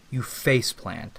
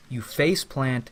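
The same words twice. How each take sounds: The two takes are said the same way.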